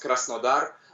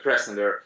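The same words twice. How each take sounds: First: The name is said the Russian way. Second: The name is said the English way.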